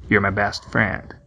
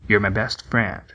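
Both takes have the same delivery.

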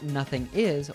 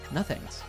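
First: The word 'is' is said as a separate full word. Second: The word 'is' is shortened to an 's' sound. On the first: "So instead of nothing is" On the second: "we hear nothings"

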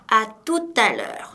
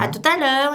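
First: The phrase is said at a normal pace. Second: The phrase is said quickly and run together.

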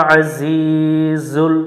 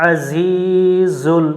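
The two takes are said the same way.

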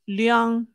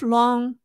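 First: The surname is said the mainland Chinese way. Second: The surname is said the Hong Kong way. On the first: "the mainland Chinese pronunciation" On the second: "in a Hong Kong pronunciation"

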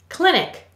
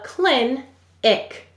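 First: The word is said as one smooth unit. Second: The word is said with a break between syllables. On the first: This is the normal way to say the word. "Go ahead and say clinic" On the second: This is a way of saying the word to help spell it. "We will say to spell clin-ic"

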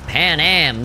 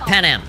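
First: The vowels are strongly emphasized and drawn out. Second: The vowels are said plainly and briefly. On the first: "They gotta like super like put a lot of emphasis on the vowels there" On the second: "Not Pan Am"

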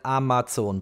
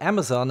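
First: Amazon is said with a German-style pronunciation. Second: Amazon is said with an English-style pronunciation. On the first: The speaker calls it wrong. "and not at Amazon" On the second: The speaker calls it right. "So I likely bought this at Amazon"

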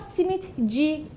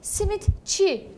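First: The suffix begins with a voiced j sound. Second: The suffix begins with a voiceless ch sound. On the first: The speaker calls it wrong. "simit C demiyorum" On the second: The speaker calls it right. "Simit çi diyorum"

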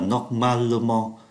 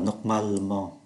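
First: The vowel before -ment is pronounced as a syllable. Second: The vowel before -ment is dropped entirely. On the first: The speaker calls it wrong. "Thay vì nói là" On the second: The speaker calls it right. "thì người ta phát âm là"

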